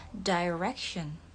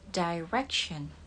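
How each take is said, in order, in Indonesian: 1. Diucapkan dengan aksen Inggris. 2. Diucapkan dengan aksen Inggris.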